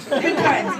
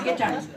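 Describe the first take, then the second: First: Ironic good times. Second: "good times" dropped low and deadpan; dry echo. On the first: Comic toasting the crowd with loud sarcasm. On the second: Comic repeating her toast to herself, low and dry. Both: Acted.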